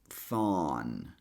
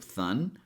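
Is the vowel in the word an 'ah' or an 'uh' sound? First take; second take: ah; uh. First: The vowel is an open 'ah' sound. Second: The vowel is a short 'uh' sound. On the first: "we connect this sound with an ah sound" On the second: "pronouncing this with a schwa sound"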